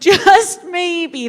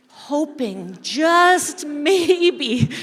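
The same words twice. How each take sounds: First: "just maybe" said at normal pace with a light laugh breaking in; with a chuckle. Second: "just maybe" drawn out very slowly, hushed and hoping; slow hopeful. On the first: Pastor telling the congregation the parable, laughing lightly. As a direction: let a little laugh slip into "just maybe". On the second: Pastor telling the congregation the parable, slowly and hopefully. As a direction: stretch each word of "just maybe" as if holding your breath. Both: Acted.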